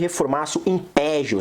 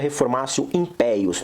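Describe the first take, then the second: First: The 'pejus' is said with a 'zh' sound. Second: The 'pejus' is said with a 'y' sound. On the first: The speaker calls it wrong. "as pessoas costumam chamar aí de" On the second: The speaker calls it right. "Mas se pronuncia"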